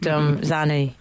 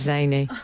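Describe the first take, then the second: First: The first vowel sounds like the 'a' in 'cat'. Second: The first vowel sounds like the 'a' in 'day'. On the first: The speaker calls it wrong. "Who said Zanny instead of Zany?" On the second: The speaker calls it right. "instead of Zany"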